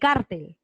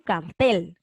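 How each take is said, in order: First: The stress is on the first syllable. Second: The stress is on the last syllable. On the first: The speaker calls it wrong. "Tú no dices" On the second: The speaker calls it right. "con la fuerza de voz aquí en tel"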